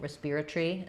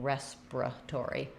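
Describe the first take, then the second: First: It is said with a British accent. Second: It is said with an American accent. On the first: "they changed the ending" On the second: "we changed the beginning"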